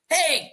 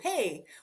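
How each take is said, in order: First: It is said in a sharp, angry way. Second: It is said in a warm, friendly way. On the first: It is a scolding. "you only say hey when you're angry" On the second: It is a greeting. "when you say hello, you say, hey"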